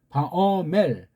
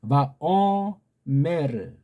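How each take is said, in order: First: It ends on the consonant with no added vowel. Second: It ends with an added vowel after the R. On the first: "서양식은" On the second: "완전한 으자는 아니지만 우리는 그렇게 발음해 줄 수 있는데"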